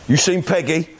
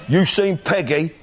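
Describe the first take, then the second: Both takes have the same delivery.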